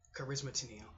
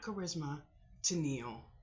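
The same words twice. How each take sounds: First: The two names are run together without a break. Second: The two names are said separately, with a break. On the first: The speaker calls it right. "Charisma Tennille together" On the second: The speaker calls it wrong. "not Charisma Tennille"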